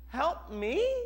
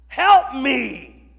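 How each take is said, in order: First: It rises at the end like a question. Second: It falls firmly like an exclamation.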